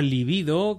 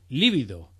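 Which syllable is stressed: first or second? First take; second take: second; first. First: The stress is on the second syllable. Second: The stress is on the first syllable. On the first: It sounds educated, possibly pedantic. The speaker calls it right. "La palabra libido, que significa deseo sexual, es llana" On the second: It is how most people say it. The speaker calls it wrong. "Se desaconseja, por tanto, la forma esdrújula líbido"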